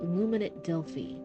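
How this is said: It is said in a deep, rumbling voice.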